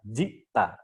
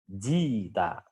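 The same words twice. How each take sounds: First: A glottal stop closes the first syllable. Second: A long vowel replaces the glottal stop. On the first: "hamzahnya sukun" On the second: "menjadi digantikan huruf ya"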